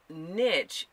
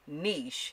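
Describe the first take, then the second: First: The word is said the Americanized way. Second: The word is said the original French way. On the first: "niche is the American Americanized or European, if you will, pronunciation" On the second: "niche retains the original French pronunciation"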